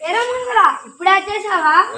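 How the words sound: It is said loudly in a big grandpa voice.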